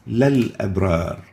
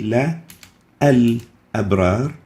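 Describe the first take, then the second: First: The parts merge without a glottal stop. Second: A glottal stop separates the two parts. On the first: The speaker calls it right. "we delete this" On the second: The speaker calls it wrong. "We don't say"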